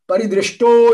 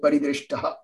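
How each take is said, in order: First: The word ends in an 'o' sound. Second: The word ends in an 'aha' sound. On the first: The word is joined to the next word without a pause. "when you're reading it together, that means if you're reading it in a flow" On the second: The word stands alone before a pause. "when you pause and then break the rules, break the joining of the word, then you have to pronounce it as paridrishtaha"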